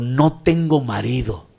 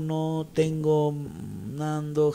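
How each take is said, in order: First: It is read clearly with expression. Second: It is read flatly and unclearly.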